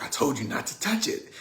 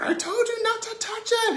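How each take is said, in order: First: Mildly voiced cross big brother, a little high; angry brother. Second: Very high-pitched mock outburst; angry brother. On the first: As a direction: scold a little sister with restrained mock anger. Angry brother confronts sister. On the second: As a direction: explode at a little sister in a high, strained voice. Brother snaps before punching her.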